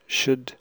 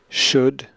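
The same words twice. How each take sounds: First: The word has a short, reduced vowel. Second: The word has a full, clear vowel. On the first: "The weak form before consonants" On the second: "I'll read the strong and the weak form"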